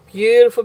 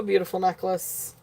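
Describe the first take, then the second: First: Loud gushing burst on "Beautiful"; loud, delighted "Beautiful". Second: "beautiful necklace" murmured softly; soft afterthought. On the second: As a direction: let "beautiful necklace" fall away quietly. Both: Real, not acted.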